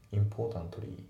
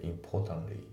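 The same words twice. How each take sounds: First: Importantly with both t sounds clearly said; full importantly. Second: Importantly with the t after n nearly silent; dropped t importantly. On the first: Teacher showing the overly careful wrong way. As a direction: say every t in importantly. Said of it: "じゃなくて". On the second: Teacher showing the natural reduced pronunciation. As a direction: swallow the t in importantly. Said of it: "Tがほぼ発音されてない". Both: Shown as a demonstration.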